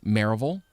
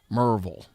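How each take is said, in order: First: The name begins with a fuller 'Mary' sound. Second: The name begins with a short 'Mer' sound. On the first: This is the usual local pronunciation. "There's the normal ways" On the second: This marks a strongly rural, redneck speaker. "or if you're really, really, really, really redneck"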